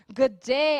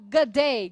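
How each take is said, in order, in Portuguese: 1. As duas palavras são ditas separadamente e por inteiro. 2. As duas palavras se juntam e viram uma só. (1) "em vez de falar good day" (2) "eles emendam e falam good day"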